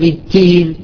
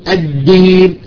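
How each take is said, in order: First: The d carries a breathy hint of t. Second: The d is clean with no breathiness. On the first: The speaker calls it wrong. "فتخرج وكأنها مشوبة بالتاء" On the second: The speaker calls it right. "الدال تخرج صافية، الدين الدين ما فيها جزء من الهمس"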